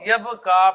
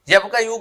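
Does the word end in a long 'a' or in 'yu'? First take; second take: long a; yu. First: The word ends in a long a vowel. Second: The word ends with a separate final yu syllable. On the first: This is how Arabs actually pronounce the word. "यब का यू को वो यब का पढ़ देगा" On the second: This is the underlying form, hard for Arabs to say. "अरब ना उस लफ्ज को प्रोनाउंस नहीं कर सकता आसानी से"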